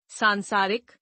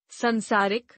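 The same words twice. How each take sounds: First: Said in the usual way. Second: संसारिक with short first vowel, "sansaarik"; mispronounced. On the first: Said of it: "शुद्ध". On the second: Shown as a demonstration. Teacher showing a vowel error, mispronounced with short first a. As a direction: start संसारिक on san, short uh. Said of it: "अशुद्ध".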